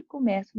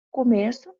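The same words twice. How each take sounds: First: Começo with an open é, like comécço, I begin; começo as a verb, open é. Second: Começo with a closed ê, like comêço, the beginning; Começo as a noun, closed ê. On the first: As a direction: say começo with open é in the middle syllable. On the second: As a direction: say Começo with closed ê in the middle syllable. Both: Shown as a demonstration. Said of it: "Só que a pronúncia é diferente".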